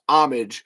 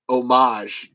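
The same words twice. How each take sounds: First: It is said with an English pronunciation. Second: It is said with a French pronunciation. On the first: A sacrifice made in someone's name. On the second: A tribute or parody of a work.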